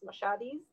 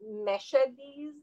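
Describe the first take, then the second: First: The first vowel sounds like 'ah'. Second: The first vowel sounds like 'eh'. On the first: This is how the community itself says it. "but it's Mashadis" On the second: Some people say it this way, depending on where they come from. "some people will pronounce it Meshadis"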